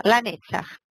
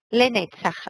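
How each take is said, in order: First: Lanetzach said with an open a in the first syllable; corrected pronunciation. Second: Lenetzach read with an e in the first syllable; first try at the word. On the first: Teacher fixing her own reading for the class, with an a sound. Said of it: "tá errado, é Lanetzach". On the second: Teacher reading the Hebrew word before she corrects it, with an e sound. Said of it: "É Lanetzach". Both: Shown as a demonstration.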